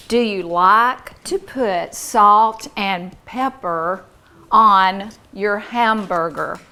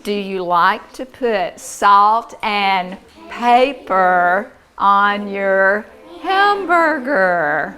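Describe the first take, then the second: First: Slow, loud, carefully spaced words; model sentence. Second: Model sentence. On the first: Teacher giving a class a sentence to hear, slow and clear. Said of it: "I'm going to say a sentence". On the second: Teacher putting the new word in a sentence, slow and lilting. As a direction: spread the words out, singsong at the end. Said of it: "Let's put that word in a sentence". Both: Shown as a demonstration.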